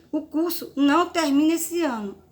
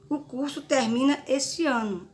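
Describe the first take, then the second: First: Não said higher and louder, hit hard; stress on não. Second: Said in the usual way. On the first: Shown as a demonstration. Teacher showing students the negative sentence, não stressed. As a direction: lean on the word não to show the negation. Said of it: "É uma frase negativa". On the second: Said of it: "É uma frase afirmativa".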